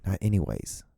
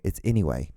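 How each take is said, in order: First: "anyways" with an s on the end, dismissed; wrong form ANYWAYS. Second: "anyway" with no s, stated as the rule; corrective ANYWAY. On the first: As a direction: reject "anyways", the z ending audible. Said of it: "It's anyway, not anyways". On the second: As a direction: lay down the right word: "anyway", ending on WAY. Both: Shown as a demonstration.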